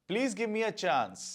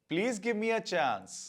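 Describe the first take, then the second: No difference in how they are said.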